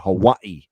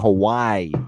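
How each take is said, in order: First: The middle syllable is stressed heavily. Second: The middle syllable is stressed only lightly. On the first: "they really stress the wa" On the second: "And I'm just saying Hawaii"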